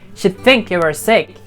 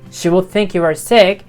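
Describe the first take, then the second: First: The two words are contracted into one syllable. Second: The two words are said fully and separately. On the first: The speaker calls it right. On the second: The speaker calls it wrong.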